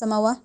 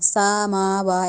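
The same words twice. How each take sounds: First: No vowel in the word is lengthened. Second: The vowel after the first consonant is lengthened. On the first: "इसको हम समावा नहीं कह सकते" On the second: "सीन को लंबा नहीं करना, समावा ऐसे नहीं"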